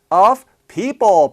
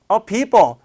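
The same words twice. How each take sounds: First: It is said at a normal speed. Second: It is said even faster.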